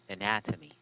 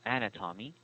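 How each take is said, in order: First: The stress is on the second syllable. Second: The stress is not on the second syllable. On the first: The speaker calls it right. "stress falls on the second syllable" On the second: The speaker calls it wrong. "it's not uh"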